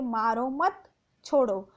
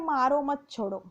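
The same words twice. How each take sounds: First: The phrase is said with a pause inside. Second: The phrase is said without any pause. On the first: The sentence has a clear meaning. The speaker calls it right. "अगर ऐसा हम बोलते हैं तो वाक्य का पूरा अर्थ पता चलता है" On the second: The sentence has no clear meaning. The speaker calls it wrong. "इसका कोई भी अर्थ नहीं लगेगा"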